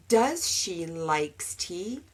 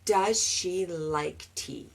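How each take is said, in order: First: Slow mock error; learner's mistake. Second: Slow, soft model sentence; correct version. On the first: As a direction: say it slowly, as the wrong version. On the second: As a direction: model the right form slowly and softly. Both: Shown as a demonstration.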